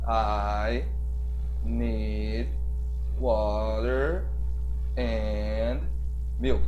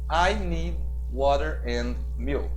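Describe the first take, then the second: First: The sentence is spoken very slowly and deliberately. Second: The sentence is spoken at a fairly quick pace. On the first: The speaker calls it wrong. "um professor assim, de uma escola tradicional estaria falando com você nessa velocidade" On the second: The speaker calls it right. "eu já estou falando um pouco mais rápido"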